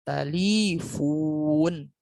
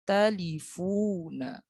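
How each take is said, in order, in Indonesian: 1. Kata ini diakhiri dengan konsonan. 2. Kata ini diakhiri dengan vokal pendek.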